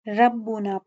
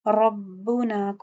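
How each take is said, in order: First: The r sound is light and thin. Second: The r sound is heavy and full. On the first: The speaker calls it wrong. "अगर हम इसको बारीक पढ़ दें तो इसको हम लोग रहने खफी कहते हैं" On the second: The speaker calls it right. "रॉ रॉ रॉ इसको पूर पढ़ना है"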